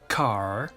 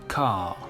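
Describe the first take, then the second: First: It is said with a strong final R. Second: It is said with no final R.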